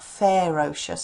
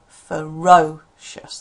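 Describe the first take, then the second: First: The first vowel is a full, clear vowel. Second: The first vowel is reduced to a schwa. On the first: The speaker calls it wrong. "it's not ferocious" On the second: The speaker calls it right. "it's ferocious, that's where the stress is here"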